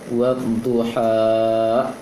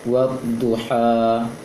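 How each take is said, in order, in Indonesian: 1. Vokal akhir panjang berlebih dan diakhiri dengan hamzah (hentian glotis). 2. Vokal akhir ditahan sebentar dan diakhiri secara terbuka. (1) "Selain berlebih matnya, juga ada hamzah di ujungnya. Seharusnya tidak ada" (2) "seperti itu aja"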